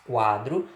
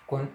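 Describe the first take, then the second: First: "quadro" with an open oral a; oral pronunciation. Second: "quando" with a nasalized first vowel; nasal pronunciation. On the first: Teacher contrasting quadro with quando, oral "quadro". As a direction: say "quadro" through the mouth only. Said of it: "a pronúncia é feita apenas pela boca". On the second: Teacher contrasting quando with quadro, nasal "quando". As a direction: air through mouth and nose on "quando". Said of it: "tanto pela boca, quanto pelo nariz". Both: Shown as a demonstration.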